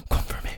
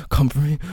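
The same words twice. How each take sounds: First: Soft whisper. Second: Higher urgent plea. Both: Acted. Intimate roleplay with a lover.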